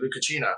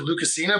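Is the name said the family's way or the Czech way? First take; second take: Czech; family. First: The name is said the Czech way. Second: The name is said the family's usual way. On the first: This is how a Czech speaker says it. "she said it's actually" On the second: This is how the family normally says it. "my family usually pronounces it"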